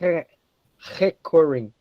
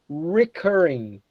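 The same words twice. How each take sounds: First: The R is said in a non-English way. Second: The R is said as an English R. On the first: The speaker calls it wrong. "we almost never we use the the sound" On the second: The speaker calls it right. "We say here"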